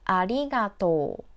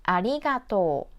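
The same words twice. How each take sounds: No difference in how they are said.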